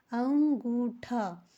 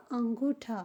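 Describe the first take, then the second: First: अंगूठा drawn out very slowly, each syllable clear; slow repeat. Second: Said in the usual way. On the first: Shown as a demonstration. Teacher repeating the word for her students, slow and clear.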